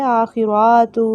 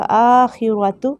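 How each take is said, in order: First: आखिरातु with the ra wrongly lengthened; wrong pronunciation. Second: आखिरतु, slow, long first a, short ra and tu; correct pronunciation. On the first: Teacher showing students the mistake, आखिरातु with a long ra. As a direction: drag out the ra in आखिरातु, the incorrect way. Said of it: "इस तरह से पढ़ेंगे तो गलत होगा". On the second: Teacher giving students the right reading, आखिरतु slow and clean. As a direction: stretch only the opening a of आखिरतु. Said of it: "ना ही तू लंबा होगा". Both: Shown as a demonstration.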